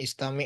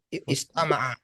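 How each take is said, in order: First: It is read with an 'i' vowel, ending in 'mi'. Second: It is read with 'a' vowels, ending in 'a'. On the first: Listen! The speaker calls it right. "Harokatnya aja yang agak berbeda" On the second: He listened. The speaker calls it wrong. "bisa aja dibaca istama'a"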